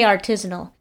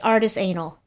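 First: The word is said in its usual form. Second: The word is split into 'artist' and 'anal'. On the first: The speaker calls it right. "I say artisanal" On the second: The speaker calls it wrong. "it's artist anal. And we do it on purpose"

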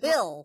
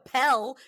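First: It is said with the standard pronunciation. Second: It is said with the Texan pronunciation. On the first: The speaker calls it right. "You take a pill" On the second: The speaker calls it wrong. "You don't take a pill"

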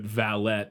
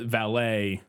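First: The word ends with a T sound. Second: The word ends without a T sound. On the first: A personal manservant. "pronounced with the T is in reference specifically to like a servant" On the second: Someone who parks cars. "as we refer to it"

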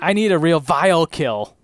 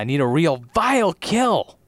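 First: The emphasis falls on an odd word. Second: The emphasis falls on the natural word.

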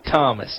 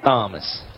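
First: The name begins with a plain t sound. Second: The name begins with a th sound. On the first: The speaker calls it right. "he actually spells his name like it sounds" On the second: The speaker calls it wrong. "spell their name Thomas with a TH, making the th sound"

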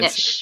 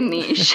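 First: It is said the American way, like nitch. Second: It is said the Canadian French way, like neesh.

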